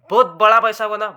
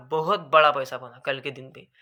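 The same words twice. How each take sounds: First: Louder, punchy first take; loud emphatic boast. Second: Said in the usual way. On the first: Real, not acted. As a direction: hit it hard with pride. Stressing a big profit.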